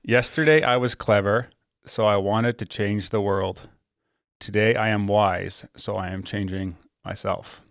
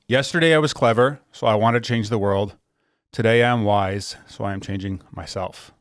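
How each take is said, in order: First: It is said slowly. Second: It is said at a normal pace.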